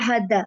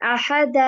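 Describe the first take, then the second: First: The final vowel is cut off short. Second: The final vowel is drawn out long. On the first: The speaker calls it wrong. "ऐसे नहीं वरना फिर अलिफ का क्या यूज़ हुआ?" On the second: The speaker calls it right. "जल्दी नहीं करूँगी"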